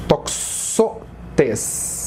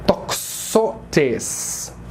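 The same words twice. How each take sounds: First: "Toxotes" with the stress on "xo", spoken softly; teacher models "Toxotes", quiet and falling; stress shown on Toxotes. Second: "toxotes" with a clear "ks", spoken softly; quiet teacher demo of "toxotes"; Greek pronunciation. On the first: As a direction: lean on the middle syllable of "Toxotes". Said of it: "a sílaba mais forte é". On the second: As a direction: model "toxotes" gently for the class. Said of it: "Então a gente fala". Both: Shown as a demonstration.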